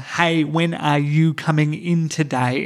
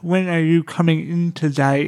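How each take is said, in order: First: It is said with big, exaggerated, clear mouth movements. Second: It is said with the tongue pushed against the cheek.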